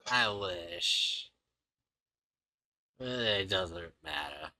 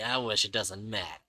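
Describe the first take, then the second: First: There is a pause after "I wish". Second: It is said straight through without a pause.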